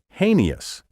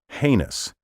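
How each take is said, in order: First: The word is said with a nonstandard pronunciation. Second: The word is said with the dictionary pronunciation. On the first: The speaker calls it wrong. "creative but wrong" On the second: The speaker calls it right. "The only pronunciation recognized by dictionaries is heinous"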